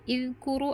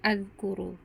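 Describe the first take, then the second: First: The word begins with an i vowel. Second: The word begins with an a vowel. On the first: "bukan izkuru" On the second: "atau azkuru"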